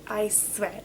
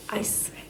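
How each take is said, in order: Both takes have the same delivery.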